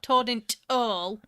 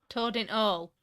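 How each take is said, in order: First: "toad in t all" with a separate t for "the"; exaggerated Yorkshire "toad in t all"; wrong version shown. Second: TOAD IN ALL with the "the" dropped; clipped-article version of "toad in all"; mispronounced. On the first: Shown as a demonstration. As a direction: stick a lone t before "all", no H. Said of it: "It's not toad in t all". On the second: Retold or imitated. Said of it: "They always put t".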